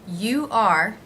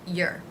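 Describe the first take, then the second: First: It is said as two full words. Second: It is said as one short contracted syllable.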